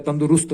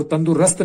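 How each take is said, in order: First: तंदुरुस्त said as tandurust, with a clear u in the third syllable; correct form. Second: तंदुरुस्त said as tandurast, with a short a in the third syllable; wrong form. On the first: Teacher giving students the corrected word. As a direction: give तंदुरुस्त its proper u sound. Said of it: "तंदुरुस्त होता है". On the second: Teacher reading the student's wrong spelling aloud. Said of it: "तंदुरुस्त नहीं होता है". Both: Shown as a demonstration.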